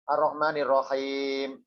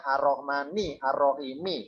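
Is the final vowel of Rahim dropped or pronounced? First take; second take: dropped; pronounced. First: The words are joined and the last vowel is dropped. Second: Every word ending keeps its final vowel. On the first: It is read as in ordinary Quran recitation, stopping on the word. "dibaca wakof" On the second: It is read for translation, showing each word's ending. "dibaca lengkap akhirannya"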